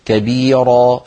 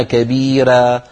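First: "كبيرة" with dark r and backed a; heavy rā. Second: "كبيرة" with thin r and fronted a; a light, drawn ending on "كبيرة". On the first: Teacher repeating second form, "كبيرة" with heavy rā. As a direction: thicken the ending of "كبيرة" toward ro. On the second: Teacher repeating first form, "كبيرة" with thinned rā. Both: Shown as a demonstration. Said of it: "التفخيم والترقيق".

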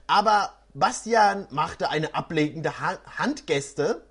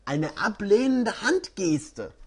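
First: Said in the usual way. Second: Ablehnende read slowly and deliberately; slow down and land on ablehnende; careful correction. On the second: Real, not acted.

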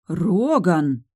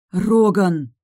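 First: Louder, reproachful Роган with a falling end; indignant call of Роган; sincerely indignant. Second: Роган much louder, sharper, falling hard; even more indignant. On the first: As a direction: scold him by name. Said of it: "искренне возмутилась я". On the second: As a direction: scold him harder by name. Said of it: "ещё больше возмутилась я". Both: Acted.

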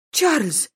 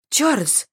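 First: High, loud squeal of his name. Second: High, loud cry of his name; sharp exclamation. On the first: Lady outraged at the duke, squeal. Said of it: "взвизгнула Анна". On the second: Lady reproaching the duke, sharp cry. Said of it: "воскликнула Анна". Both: A narrator's reading.

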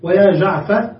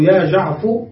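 First: ويا جعفر ending in an open a, يا جعفَ; ending with fatha. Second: يا جعفر ending in u, يا جعفُ; ending with damma. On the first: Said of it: "على لغة من ينتظر المحذوف". (نطق يا جعفَ بالفتح) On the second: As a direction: close يا جعفر on a damma over the fa. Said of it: "فتبنيها على الضم". (نطق يا جعفُ بالضم) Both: Shown as a demonstration.

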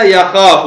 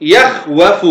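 First: يخاف with a long a, ya-khaa-fu; resulting form. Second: يخوف split as yakh-wa-fu; original form. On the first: Teacher saying what it became, يخاف with a long a, ya-khaa-fu. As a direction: say يخاف joined up on a long vowel. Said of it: "فصارت ماذا؟". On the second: Teacher showing the present tense's origin, يخوف split as yakh-wa-fu. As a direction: break يخوف after the kh, then wa-fu. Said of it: "هذا الأصل". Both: Shown as a demonstration.

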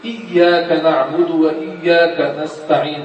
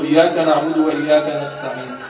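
First: Slow "إياك" starting on a clear short "i"; correct hamza. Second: Hurried recitation. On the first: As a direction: recite "إياك نعبد وإياك نستعين" slowly, clear "i" and doubled y. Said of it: "همزة مكسورة إي". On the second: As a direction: rattle off "إياك نعبد وإياك نستعين" carelessly. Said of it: "للاستعجال". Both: Shown as a demonstration.

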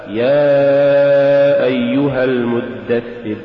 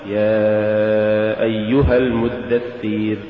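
First: يا أيها المدثر chanted slowly and loud, short kasra; strong careful chant; correct recitation. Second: يا أيها المدثر with the kasra drawn into a ya; wrong drawn-out chant; faulty recitation. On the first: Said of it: "الصواب". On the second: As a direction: stretch the kasra too long. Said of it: "ولا تقل". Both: Shown as a demonstration.

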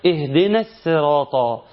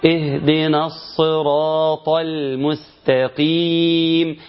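First: Slow اهدنا الصراط with a thin s in الصراط; sad turned to seen. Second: Slow chant, الصراط with a full emphatic s; correct heavy sad. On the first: Teacher imitating a distortion, sad said as seen. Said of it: "بتنطق بالسين". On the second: Teacher modelling the precise reading, emphatic sad. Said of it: "عاوز إن أنت تضبط". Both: Shown as a demonstration.

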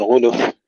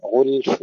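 First: غلف broken as ghu-luf; bounced lam, wrong. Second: غلف as one syllable, ghulf; still lam and fa. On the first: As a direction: slip a short vowel after the ل of غلف. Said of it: "لا نقلقل اللام". (غلف بقلقلة اللام خطأً) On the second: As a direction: close غلف with l and f, no vowel between. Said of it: "تسكين اللام وتسكين الفاء". (غلف بتسكين اللام والفاء) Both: Shown as a demonstration.

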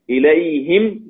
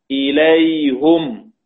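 First: إليهم said "ilayhim"; kasra on the ha. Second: إليهم said "ilayhum", slowly; damma on the ha. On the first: Teacher listing ya sakina examples, إليهم as "ilayhim". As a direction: end إليهم on a clear "-him". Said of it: "إذا كان قبلها ياء ساكنة". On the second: Teacher reciting as Hamza reads, إليهم as slow "ilayhum". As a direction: stretch إليهم to a "-hum" ending. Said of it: "إلا حمزة قرأها بالضم". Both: Shown as a demonstration.

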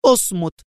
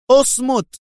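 First: A bit higher shut up; first firm yell of اصمت; shouting اصمت moderately. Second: Much higher, louder final اصمت; topping shout of اصمت. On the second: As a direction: yell اصمت at full pitch to end it. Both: A narrator's reading. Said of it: "صاحت به".

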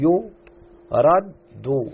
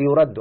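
First: "يرد" drawn out slowly in three parts, yu-rad-du; syllable by syllable. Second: Said in the usual way. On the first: Shown as a demonstration. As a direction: break "يرد" into slow syllables, leaning on the doubled dal. ("يرد" مقطّعة ببطء مع تشديد الدال) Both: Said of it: "لاحظ أن الحرف الدال مشدد".

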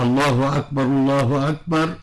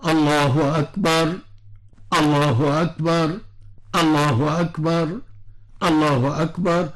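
First: "الله أكبر، الله أكبر" run together with no gap between them; said as one continuous phrase; connected takbir. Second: Each "الله أكبر" set apart by a clear pause; separated takbir. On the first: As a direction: join the two "الله أكبر" in one breath. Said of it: "يعني". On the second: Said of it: "ولا تكون منفصلة". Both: Shown as a demonstration.

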